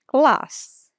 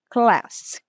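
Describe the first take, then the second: First: A long stretched British vowel is used. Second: An Indian-style accent with a shorter vowel. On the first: "Puxa esse A aí" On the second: "E o indiano"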